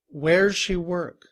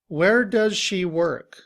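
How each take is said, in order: First: Does shrinks to a z sound joined to where. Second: The word does is said fully and clearly. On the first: "In reduced form, ... we would just say, where's" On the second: "We have a sentence"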